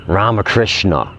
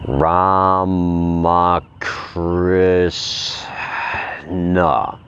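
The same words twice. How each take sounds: First: Said in the usual way. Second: Each syllable drawn out, very slow. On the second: Shown as a demonstration. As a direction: stretch Ramakrishna out syllable by syllable. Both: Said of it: "I'm gonna say it real slow".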